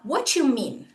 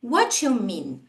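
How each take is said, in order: The two takes are said the same way.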